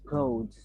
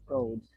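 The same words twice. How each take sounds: First: One consonant of the final cluster is dropped. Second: The same.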